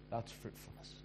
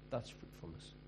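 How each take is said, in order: First: Breathy whisper of the key word; hushed emphatic whisper. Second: Whispered again, slightly lower; soft whispered repeat; whispered echo. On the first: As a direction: drop to a whisper to land it. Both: Shown as a demonstration.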